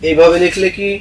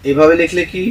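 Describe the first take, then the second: No difference in how they are said.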